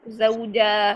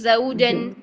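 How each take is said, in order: First: The word ends with a long a vowel. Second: The word ends with an n sound. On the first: The reading stops on this word. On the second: The reading continues without stopping.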